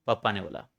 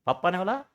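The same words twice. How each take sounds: First: पापा ने बोला said as a flat statement, falling low and quiet; पापा ने बोला with a settled low fall; answering statement. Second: पापा ने बोला? with the pitch rising at the end; पापा ने बोला asked back in disbelief, rising; doubtful question. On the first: Teacher answering his own question with a low falling statement. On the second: Teacher echoing the answer as a doubting rising question. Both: Shown as a demonstration. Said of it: "किसने बोला?".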